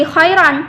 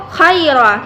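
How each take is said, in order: First: "khairan" closed with a final N; joined-reading form. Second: "khaira" ending on an open A, no final N; stopping form. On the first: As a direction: end "khairan" on N instead of an open A. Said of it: "bukan lagi khairan". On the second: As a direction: end "khaira" on a held open vowel, as at a pause. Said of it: "kita bacanya". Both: Shown as a demonstration.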